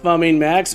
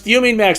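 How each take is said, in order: First: The first syllable sounds like 'fun'. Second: The first syllable sounds like 'fume'. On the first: The speaker calls it wrong. "not Fumming Max" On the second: The speaker calls it right. "it's Fuming Max"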